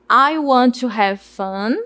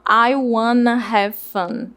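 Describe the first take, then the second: First: 'Want to' is said as two separate words. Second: 'Want to' is blended into one word, 'wanna'. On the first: It is the formal way to say it. "A primeira" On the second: It is the informal way to say it. "A informal"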